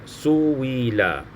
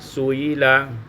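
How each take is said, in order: First: The middle glottal stop is replaced by a w sound. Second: The middle glottal stop is softened, not fully closed. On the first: "mentukarkan hamzah dengan waw yang dikasrahkan" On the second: "tashilul hamzah, mentashilkan hamzah"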